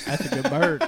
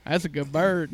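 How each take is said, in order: First: Much higher, quoting while cracking up; can barely get it out for laughing; laughing through quote. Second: Said in the usual way. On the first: Retold or imitated. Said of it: "He goes". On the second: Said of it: "he goes".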